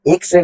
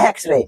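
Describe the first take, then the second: First: এক্স-রে mispronounced with "i", as "iks-re"; wrong-way এক্স-রে, starting "iks"; wrong vowel. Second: এক্স-রে with an opening "e", as "eks-re"; right-way এক্স-রে, starting "eks"; correct vowel. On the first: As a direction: open এক্স-রে on a short "i" sound. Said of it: "এক্স-রে না এক্স-রে". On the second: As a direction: open এক্স-রে clearly on the "e" vowel. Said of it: "এই এক্স যেহেতু এ উচ্চারণ আসছে". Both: Shown as a demonstration.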